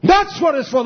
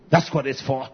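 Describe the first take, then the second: First: Much higher and louder, a full preacher's cry; preaching shout. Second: Said in the usual way. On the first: Acted. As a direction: thunder it out to the congregation. Preacher repeats line, then shouts it.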